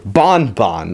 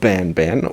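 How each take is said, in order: First: The vowel sounds like the 'o' in 'bon'. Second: The vowel sounds like the 'a' in 'ban'. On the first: This is the way the creators say the name. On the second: This is the usual way people say the name.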